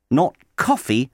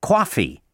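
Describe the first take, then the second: First: "coffee" with a rounded British o, KOFF-ee. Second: "coffee" with an open American a, KAH-fee. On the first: Teaching the British vowel in "coffee". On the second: Teaching the American vowel in "coffee". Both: Shown as a demonstration. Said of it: "the accents are different too".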